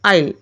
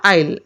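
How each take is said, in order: First: The two words merge into one short syllable. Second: The same.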